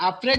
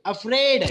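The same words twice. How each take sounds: First: "afraid" wrongly weighted on the opening a; stress on first syllable. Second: "afraid" with a light a and loud -fraid; stress on second syllable. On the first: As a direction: lean on the a of "afraid", not -fraid. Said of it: "afraid नहीं है ये". ("afraid" के a पर गलत ज़ोर) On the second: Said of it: "you have to focus on the afraid". ("afraid" में -fraid पर ज़ोर) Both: Shown as a demonstration.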